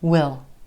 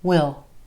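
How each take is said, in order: First: It is a contraction with a reduced vowel. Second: The same.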